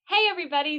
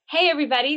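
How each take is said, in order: First: The greeting sounds very perky and bright. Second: The greeting sounds calmer and less perky.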